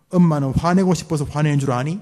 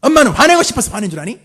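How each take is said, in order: First: Louder scolding mother, 화내고 stressed; a mother justifying her anger. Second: Fast, high, much louder yell with 화내고 rising; an angry mother screaming at her child; shouting mother. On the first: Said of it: "한번 들어갑시다". (변명하며 화내는 엄마) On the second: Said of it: "따라하지 말고 저 혼자 할게요". (소리 지르는 엄마) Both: Shown as a demonstration.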